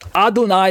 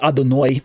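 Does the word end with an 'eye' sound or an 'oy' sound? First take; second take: eye; oy. First: The last syllable ends with an 'eye' sound. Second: The last syllable ends with an 'oy' sound. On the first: This is how most English readers say it. "Adonai is how most English readers pronounce it"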